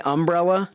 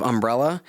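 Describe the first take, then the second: First: "umbrella" with stress on the first syllable; Southern pronunciation. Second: Said in the usual way. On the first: Shown as a demonstration. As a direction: hit UM in "umbrella", Southern style. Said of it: "which is a little different". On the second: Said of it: "instead of umbrella".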